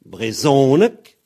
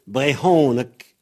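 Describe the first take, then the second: First: "Brezonek" slow, loud on voiced ZO; "Brezonek" with buzzed z, stressed middle; Z form. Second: "Brehonneck" with breathed h, stressed middle; "Brehonneck" with aspirated h instead of z; H form. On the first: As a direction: punch the z syllable in "Brezonek". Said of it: "avec un Z, a donné". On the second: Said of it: "avec un re, a donné". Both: Shown as a demonstration.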